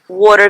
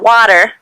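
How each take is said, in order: First: It is said with a New York accent. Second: It is said without a New York accent. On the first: "because I'm from New York" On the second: "Not water"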